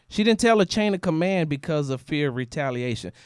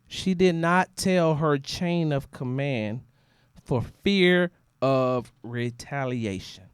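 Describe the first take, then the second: First: It is said at normal speed. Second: It is said noticeably more slowly.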